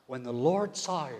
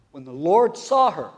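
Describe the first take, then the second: First: Said in the usual way. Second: "When the Lord saw her" re-read louder and slower, stress on "saw"; emphatic re-read. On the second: Shown as a demonstration. Preacher re-reading the verse to the church, emphatic and slow. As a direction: lean hard on "saw" the second time. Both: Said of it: "here it is, verse thirteen".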